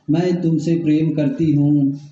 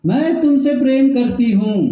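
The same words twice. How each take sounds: First: Said in the usual way. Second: Higher, insistent imitation of the wife; forceful retold reply. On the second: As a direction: call it back forcefully to the husband. (ऊँचे सुर में, ज़ोर देकर) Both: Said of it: "अब वो भी तेजी से बोलती है".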